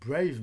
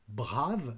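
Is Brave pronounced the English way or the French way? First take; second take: English; French. First: The name is pronounced with English sounds. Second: The name is pronounced with French sounds. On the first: "On dit plutôt Brave" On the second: "je le prononce à la française"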